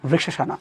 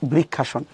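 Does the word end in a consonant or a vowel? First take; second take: vowel; consonant. First: The word ends with a final a vowel. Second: The word ends on the consonant n. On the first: "সংস্কৃতে বলতে গেলে বৃক্ষাসনা" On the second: "Bangla better বৃক্ষাসন"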